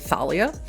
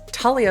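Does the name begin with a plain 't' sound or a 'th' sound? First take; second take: th; plain t. First: The name begins with a 'th' sound. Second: The name begins with a plain 't' sound. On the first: The speaker calls it wrong. "You want to say Thalia, but that is" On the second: The speaker calls it right. "that is just how we pronounce it"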